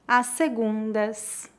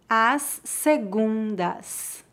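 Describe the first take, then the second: First: It is spoken at a natural pace. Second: It is spoken slowly and carefully. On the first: "2 vezes mais naturalmente" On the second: "Uma vez mais devagar"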